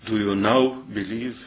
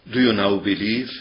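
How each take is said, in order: First: "now" lifted and leaned on, rising at the end; stress on now. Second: "you" lifted and leaned on, rising question; stress on you. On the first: Preacher asking how Jesus stressed the question, "now" stressed. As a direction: hit "now" and let the question rise. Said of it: "Did it sound like". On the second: Preacher trying the other stress, "you" stressed. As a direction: punch "you" and let it rise. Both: Shown as a demonstration.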